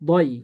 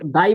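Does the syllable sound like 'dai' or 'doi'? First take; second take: doi; dai. First: The vowel is a rounded 'o', like 'doi'. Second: The vowel is an open 'a', like 'dai'. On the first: The speaker calls it right. "দত ইয়া জবর দই" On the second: The speaker calls it wrong. "দাই বললে দাল হয়ে যাচ্ছে"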